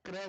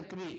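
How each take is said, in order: First: क्रय with an "ay" vowel; wrong vowel. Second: क्री with a long "ee"; long "ee" vowel. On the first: Guru showing disciples the mistake, क्रय said with "ay". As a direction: say क्रय with an open gliding vowel, not a long "ee". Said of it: "क्रय नहीं, क्री". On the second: Guru correcting disciples' mantra, क्री said with long "ee". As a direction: end क्री on a pure long "ee". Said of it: "क्री लगनी चाहिए". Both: Shown as a demonstration.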